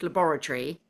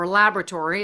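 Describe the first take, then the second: First: It is said in a British accent. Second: It is said in an American accent.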